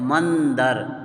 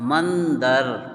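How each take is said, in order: The two takes are said the same way.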